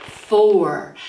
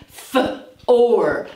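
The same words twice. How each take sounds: First: Said in the usual way. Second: F-or with the f held apart; sounded out. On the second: Shown as a demonstration. Teacher sounding out F-or. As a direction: hold the F, then or. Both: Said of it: "we have the f sound".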